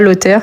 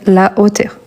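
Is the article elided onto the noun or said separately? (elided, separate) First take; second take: elided; separate. First: The article is elided into the noun. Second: The article is said fully before the noun. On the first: The speaker calls it wrong. "On ne dit pas l'auteur" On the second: The speaker calls it right. "mais la hauteur"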